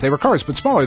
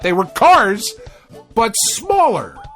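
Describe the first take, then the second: First: It is read very quickly, rushing the words. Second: It is read at a normal speaking pace.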